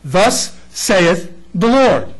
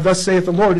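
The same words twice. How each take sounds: First: Slow, weighty Thus saith the Lord with Lord falling; solemn proclamation. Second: Said in the usual way. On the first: Shown as a demonstration. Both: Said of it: "Prophecy means to proclaim truth".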